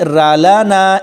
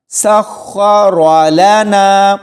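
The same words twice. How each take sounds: First: را لنا with a light, thin ra. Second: Slow سخر لنا with a full, thick ra and long vowels; heavy r. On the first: Teacher showing what to avoid, ra read thin. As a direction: say را لنا wrongly, keeping the ra light. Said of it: "اس کو باریک را لنا ایسے نہیں پڑھنا". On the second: Teacher modelling the thick ra, slow recitation. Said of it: "موٹا پڑھا جائے". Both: Shown as a demonstration.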